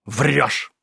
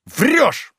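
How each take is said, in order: First: Said in the usual way. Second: Врёшь! flung out much higher, cutting him off; interrupting shout. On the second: Acted. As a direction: cut in with a sharp high Врёшь!. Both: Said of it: "сказал Ноздрёв, не давши кончить".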